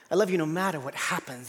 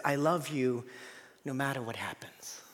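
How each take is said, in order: First: Said in the usual way. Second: Soft, low, ending in a whisper; tender whisper. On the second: Acted. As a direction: breathe it like a tender promise. Voicing God's love, hushed.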